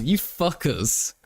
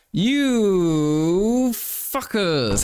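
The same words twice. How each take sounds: First: Said in the usual way. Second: Drawn-out, very slow mock fury, a touch higher; mock outrage. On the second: Streamer hams up fury at his teasing chat, very slowly. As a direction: stretch every syllable in hammed-up outrage. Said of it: "I am angry".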